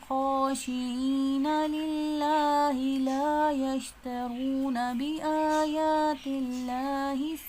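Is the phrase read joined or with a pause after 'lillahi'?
joined. It runs through 'lillahi la' without any stop. The speaker calls it right. "पीछे से मिला के पढ़ेंगे ... ये सही तरीका है।"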